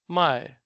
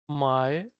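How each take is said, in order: First: The syllable has a falling fourth tone. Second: The syllable has a dipping third tone. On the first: To sell. "it is like with the fourth tone" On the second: To buy. "my with third tone here"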